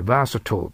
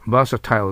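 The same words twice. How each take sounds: First: バーサトール ending in a short reduced "-tl"; "-til" pronunciation. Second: バーサタイル ending like the word "tile"; "-tile" pronunciation. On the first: Teacher showing the first of two accepted pronunciations, reduced ending. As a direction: say バーサトール like "VER-suh-tl". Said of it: "二つ発音があって". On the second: Teacher showing the second accepted pronunciation, "-tile" ending. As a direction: say バーサタイル like "VER-suh-tile". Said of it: "という発音もあります". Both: Shown as a demonstration.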